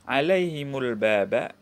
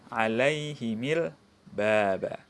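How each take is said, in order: First: The vowel after the m is not i. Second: The vowel after the m is i.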